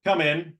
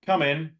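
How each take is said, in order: First: A slightly raised come in; neutral welcome. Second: "Come in" with the pitch dropping down; falling tone. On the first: Coach greets a latecomer in class, neutral tone. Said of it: "How does that feel". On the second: Coach greets a latecomer with falling tone. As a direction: let "Come in" sink at the end. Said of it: "It's going down". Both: Shown as a demonstration.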